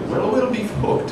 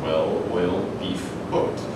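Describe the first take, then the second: First: The words are said quickly and run together. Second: The words are said slowly and separately. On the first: It sounds like an exclamation in an Irish accent. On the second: They are four separate words.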